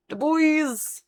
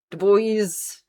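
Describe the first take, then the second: First: "bois" sung up high and falling; high playful "Du bois"; high sing-song. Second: Said in the usual way. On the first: Shown as a demonstration. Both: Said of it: "saying the name two ways".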